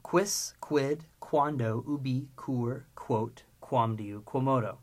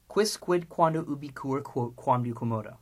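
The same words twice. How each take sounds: First: Deliberate list with gaps between words; slow recitation. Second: Brisk run-through of the list, stepping down in pitch; quick recitation. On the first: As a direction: chant the list slowly, word by word. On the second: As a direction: rattle off the Latin list. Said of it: "Now, three times quickly". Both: Shown as a demonstration.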